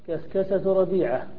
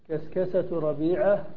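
The two takes are said the same way.

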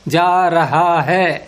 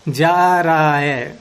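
First: Every h sound is fully pronounced. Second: The h sounds drop, leaving only vowels. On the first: The speaker sounds overly formal and pure. "कहेंगे बड़ा शुद्ध बोल रहा है ये तो" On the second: This is how people naturally speak in haste. "तो हा गायब हो गया ना"

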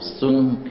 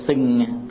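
First: The vowel is said with rounded lips. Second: The vowel is said with spread, unrounded lips. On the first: The speaker calls it right. "Mình phải o cái miệng mình lại" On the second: The speaker calls it wrong. "chứ không phải là xuân"

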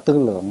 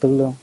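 First: The second syllable has a low, heavy tone. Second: The second syllable has a level tone. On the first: This is the original reading of the term. "vốn là tư lượng" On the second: This is the reading people commonly use. "mình thường đọc là tư lương"

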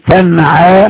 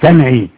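First: The word ends in a long 'aa' vowel. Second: The word ends in a long 'ee' vowel. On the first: The speaker calls it right. "كلمة تنعى" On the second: The speaker calls it wrong. "ما تقولش تنعي"

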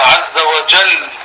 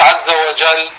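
First: The final L is held long and doubled. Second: The final L is short and single. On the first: The speaker calls it right. "تلفظوه مشدد" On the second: The speaker calls it wrong. "وجل هذا لام ساكنة، ها مش لام مشددة"

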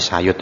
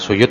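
First: The first vowel is an 'a' sound. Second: The first vowel is an 'u' sound. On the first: The speaker calls it right. "tetapi Sayut ya, sinnya dibaca Fathah" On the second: The speaker calls it wrong. "nama itu bukan Suyut"

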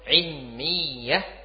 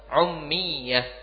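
First: The word begins with an 'i' vowel. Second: The word begins with a 'u' vowel.

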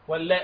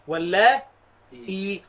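First: The word ends on a glottal stop. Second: The glottal stop is followed by a long 'ee'. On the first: "وبالهمز كل اللاء" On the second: "والياء بعده اهي"

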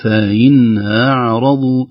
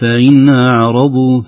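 First: The glottal stop is eased and weakened. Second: The same.

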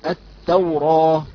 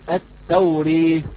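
First: The final vowel is an open a sound. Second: The final vowel leans fully toward e. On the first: "إذا قرأناها بالفتح تقرأ هكذا" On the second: "بالإمالة نقول التوري"

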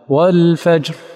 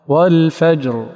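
First: The final r sound is voiceless. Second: The final r sound is voiced. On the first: The speaker calls it wrong. "أنقص الجهر جاء به مهموسا" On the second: The speaker calls it right. "هذا الجهر"

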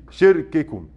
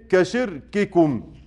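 First: The k sounds are light and softened. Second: The k sounds are strong and fully released. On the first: The speaker calls it wrong. "يقولها بتخفيف" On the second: The speaker calls it right. "احرص على الشدة في التاء وفي الكاف. زي ايه؟"

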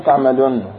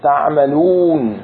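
First: The final long vowel is snatched and clipped short. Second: The final long vowel is held its full length. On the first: The speaker calls it wrong. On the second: The speaker calls it right.

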